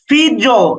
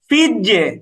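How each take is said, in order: First: The final echo vowel sounds like 'o'. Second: The final echo vowel sounds like 'e'. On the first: The speaker calls it wrong. "এরকম না কিন্তু" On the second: The speaker calls it right. "জের"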